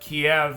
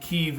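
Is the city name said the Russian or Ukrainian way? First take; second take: Russian; Ukrainian. First: The name is said the Russian way. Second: The name is said the Ukrainian way. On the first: "that's the Russian pronunciation of it" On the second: "Kiev is the Ukrainian pronunciation"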